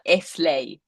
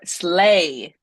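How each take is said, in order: First: An extra vowel sound comes before the s. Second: The word starts directly with the s sound. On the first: The speaker calls it wrong. "It's not eslay" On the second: The speaker calls it right. "Empieza directamente con la S"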